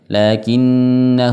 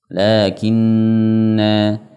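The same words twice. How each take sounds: First: The final vowel is kept short. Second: The final vowel is drawn out long. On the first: The reciter continues without stopping. "ketika dibaca lanjut dibaca pendek" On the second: The reciter stops after this word. "ketika kita berhenti dibaca panjang"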